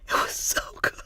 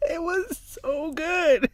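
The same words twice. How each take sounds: First: Hushed, voiceless rave about food; awed whisper. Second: High, slow, drawn-out delight; sing-song high and lingering over the taste; savouring rave. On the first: Telling a friend about the food she tried, awed whisper. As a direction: whisper it, savouring. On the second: Raving to a friend about the seaweed, high savouring voice. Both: Retold or imitated.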